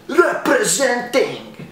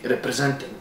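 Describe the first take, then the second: First: Drawn-out, high showy proclamation; hammed-up boast. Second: Said in the usual way. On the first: Comic showing off his hometown Sarajevo, hammed-up boast. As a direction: sing out a mock hometown boast. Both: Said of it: "No, seriously".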